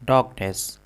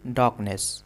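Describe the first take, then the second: Both takes have the same delivery.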